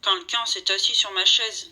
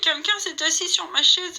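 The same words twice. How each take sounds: First: It is said in a big, deep voice. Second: It is said in a small, whining voice.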